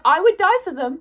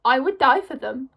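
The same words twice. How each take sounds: First: "would" pushed up higher and louder, dead serious; earnest insistence. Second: Said in the usual way. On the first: Shown as a demonstration. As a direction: insist on it, hitting "would" hard. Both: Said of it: "I'm not even saying that as a joke".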